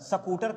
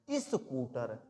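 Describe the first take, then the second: First: The word starts directly with the s sound. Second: A short i vowel comes before the s. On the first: The speaker calls it wrong. "स्कूटर कभी नहीं पढ़ा जाता है" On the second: The speaker calls it right. "उसका उच्चारण सदैव छोटी ई से होगा"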